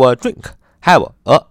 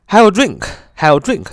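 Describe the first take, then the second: First: Slow, stressed a in have a; dictating. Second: Slow, careful have a drink; slow model phrase. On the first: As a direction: lean on a, slowly. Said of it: "就是那个a呀". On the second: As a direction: model it slowly for students. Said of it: "比如说". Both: Shown as a demonstration.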